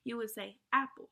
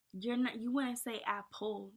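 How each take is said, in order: First: "apple" with the first syllable "ap" hit louder; stress on AP. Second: "apple" with stress on the second syllable, "ple"; wrong stress on apple. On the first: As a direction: punch "ap" in "apple". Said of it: "So you stress ap". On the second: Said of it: "That, that doesn't even sound right". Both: Shown as a demonstration.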